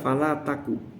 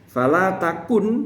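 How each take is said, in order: First: The last word ends without an n sound. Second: The last word ends with an n sound. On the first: The final letter has been dropped. "nunnya dibuang" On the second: This is the original full form. "aslinya kan takun"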